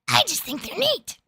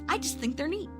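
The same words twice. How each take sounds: First: It is said in an attempted Marge Simpson voice. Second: It is said in the speaker's natural voice.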